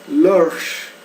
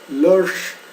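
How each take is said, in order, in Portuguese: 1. A palavra é dita com uma sílaba. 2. A palavra é dita com uma sílaba.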